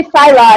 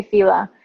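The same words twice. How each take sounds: First: "Fila" mimicked with a long i, FY-la; imitated Fila pronunciation. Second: "Fila" said FEE-la; own Fila pronunciation. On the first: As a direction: say "Fila" with the vowel of file. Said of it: "you always say Fila". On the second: Shown as a demonstration. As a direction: say "Fila" with an ee vowel. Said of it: "and I always say Fila".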